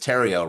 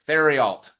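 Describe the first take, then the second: First: The name ends rhyming with the word stereo. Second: The name ends in a way unlike stereo. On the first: The speaker calls it right. "it's Terrio rhymes with stereo" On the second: The speaker calls it wrong. "that does not rhyme with stereo"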